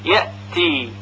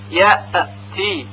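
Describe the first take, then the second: First: The glottal stop is held firmly without a bounce. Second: The glottal stop is released with an echoing bounce. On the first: The speaker calls it right. "پس صحیح هون این طور هست" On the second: The speaker calls it wrong. "اگر این طوری که الان گفته میشه تلفظ بشه یأتی، یأتی، غلط هست، چون همزه که ساکن هست قلقله پیدا کرده"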